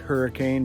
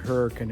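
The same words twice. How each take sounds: First: It is said like the storm word. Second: It is said differently from the storm word. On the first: This follows the spelling, not local use. The speaker calls it wrong. "I know it's spelled like hurricane, but that is not how they pronounce it here" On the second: This is how people in the town say it. The speaker calls it right. "yes, that is how you pronounce it. That's the way the locals have said it for years"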